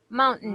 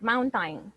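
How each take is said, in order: First: The second syllable is said through the nose. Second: The second syllable sounds like time. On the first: The speaker calls it right. "some people pronounce the T A I N part with a nose, with a nasal sound" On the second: The speaker calls it wrong. "But never say time, like mountain"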